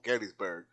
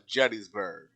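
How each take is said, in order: First: The word begins with a hard G sound. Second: The word begins with a J sound. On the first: The speaker calls it wrong. "Now I know what you're thinking" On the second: The speaker calls it right. "apparently you're supposed to pronounce it like a J"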